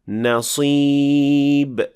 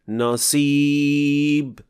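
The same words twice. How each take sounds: First: The s sound is heavy and emphatic. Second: The s sound is light and plain. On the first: The speaker calls it right. "it should sound like this" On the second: The speaker calls it wrong. "not enough raising of the back of the tongue, producing a sin-like sound"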